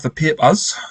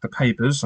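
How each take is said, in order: First: Geordie 'papers' with a pinched first vowel, pee-pus; Geordie accent. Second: Said in the usual way. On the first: Acted. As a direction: say papers the Geordie way. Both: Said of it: "I said it in a Geordie accent there".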